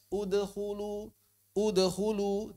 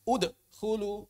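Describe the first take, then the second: First: Slow udkhulu flowing through the d; udkhulu, smooth bounce straight into "khu"; correct joined echo. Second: Udkhulu broken after "ud"; slow ud, pause, khulu; wrongly paused echo. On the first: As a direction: model udkhulu without a break. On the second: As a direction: show the mistake: a gap inside udkhulu. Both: Shown as a demonstration. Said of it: "Jangan dibaca".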